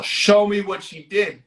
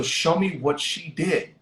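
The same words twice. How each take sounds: First: Higher-pitched retold order; insistent demand. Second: Said in the usual way. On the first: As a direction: press the demand as the sheriff. Sheriff repeats demand after being questioned.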